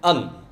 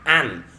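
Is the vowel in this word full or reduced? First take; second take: reduced; full. First: The word is said with a reduced vowel. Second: The word is said with a full vowel. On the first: The speaker calls it right. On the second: The speaker calls it wrong.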